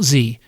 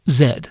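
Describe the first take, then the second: First: The letter is said the American way. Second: The letter is said the British way. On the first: The speaker calls it wrong. "not Z" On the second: The speaker calls it right. "unless you are American, it's Gen Z"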